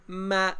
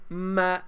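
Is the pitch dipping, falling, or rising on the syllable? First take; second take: rising; rising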